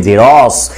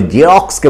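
First: জেরস said "je-ros", the k dropped; everyday k-less form. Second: জেরক্সকে with the k sounded, "je-roks-ke"; full English form. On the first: Teacher shows pupils what we say instead, k-less pronunciation. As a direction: leave out the k in জেরস, ending on plain s. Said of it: "আমরা বলি জেরক্সকে বলি". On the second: Teacher gives pupils the original English word, full pronunciation. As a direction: sound the ks cluster clearly in জেরক্সকে. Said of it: "এই কটাকে কিন্তু আমরা উচ্চারণ করি না". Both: Shown as a demonstration.

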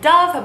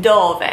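First: Dove said like the English bird, duv. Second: Dove said the Italian way, DOH-veh. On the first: Teacher showing viewers the wrong reading, English dove. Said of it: "It looks like it is spelled dove". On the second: Teacher showing viewers the right Italian dove. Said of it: "you would pronounce it dove". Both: Shown as a demonstration.

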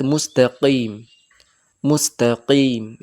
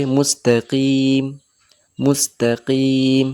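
First: মুস্তাকিম with the q pushed too far back in the throat, slowly; slow মুস্তাকিম with an exaggerated throat q; wrong pronunciation. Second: মুস্তাকিম slowly with the q in the middle of the mouth; মুস্তাকিম with a balanced, moderate q; slow, careful মুস্তাকিম; correct pronunciation. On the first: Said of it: "এটাও ভুল". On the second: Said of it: "মিডিলে থাকবে". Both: Shown as a demonstration.

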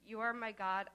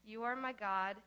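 The two takes are said the same way.

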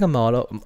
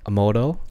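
First: Motto said as "MAH-doh", open first vowel; short-O pronunciation. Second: Motto said as "MOH-doh", questioning; long-O pronunciation. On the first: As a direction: try motto out as "MAH-doe". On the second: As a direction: try motto out as "MOH-doe?". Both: Shown as a demonstration. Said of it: "Why is that word sounding so funny".

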